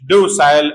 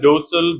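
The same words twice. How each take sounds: First: The last syllable has a full 'eye' vowel. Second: The last syllable is reduced, without 'eye'.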